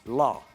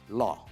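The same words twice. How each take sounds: First: The vowel sounds like 'aw'. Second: The vowel sounds like 'aw'.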